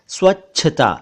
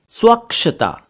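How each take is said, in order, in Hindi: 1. बीच का व्यंजन chh की तरह बोला जाता है। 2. बीच का व्यंजन ksh की तरह बोला जाता है। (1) "सही शब्द है स्वच्छता" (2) "ये गलत शब्द है"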